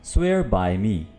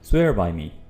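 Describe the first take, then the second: First: It is said slowly, word by word. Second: It is said quickly and smoothly, words joined.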